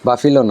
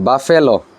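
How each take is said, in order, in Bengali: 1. মাঝের স্বরধ্বনিটি 'ee'-র মতো শোনায়। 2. মাঝের স্বরধ্বনিটি 'eh'-র মতো শোনায়। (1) "বাফিলো না" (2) "না বাফেলো"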